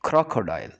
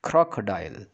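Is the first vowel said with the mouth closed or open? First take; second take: open; open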